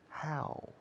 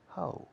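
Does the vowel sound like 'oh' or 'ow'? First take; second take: ow; oh. First: The vowel sounds like 'ow'. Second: The vowel sounds like 'oh'. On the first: The speaker calls it right. "Say how. Open your mouth" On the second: The speaker calls it wrong. "So don't say ho"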